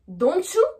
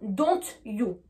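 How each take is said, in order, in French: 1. Les sons t et y se fondent en un son ch. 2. Les sons t et y se prononcent séparément. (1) "on va rajouter entre les deux le son C H" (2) "avec la prononciation française, on aurait tendance à dire"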